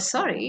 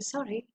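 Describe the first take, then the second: First: The voice falls sharply at the end. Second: The voice stays level and neutral. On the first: It means the opposite of an apology. "a sharp falling tone" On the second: It is a normal apology. "It means a neutral tone and a normal apology"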